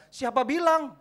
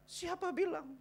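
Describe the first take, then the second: First: High, forceful challenge; shouted rebuttal; loud retort. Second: Very high voice at normal volume; drawn-up high questioning retort; high-pitched retort. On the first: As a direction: throw the question back at full volume. Rebutting a parent's objection. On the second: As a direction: repeat the challenge high, without shouting. Same retort repeated without the shout. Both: Acted.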